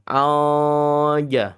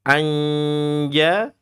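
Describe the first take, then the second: First: The n is dropped with the mouth too open. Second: The tongue middle presses the palate for the n. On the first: "Bukan juga terlalu lebar ya" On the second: "ini berarti tengah lidah menempel langit-langit"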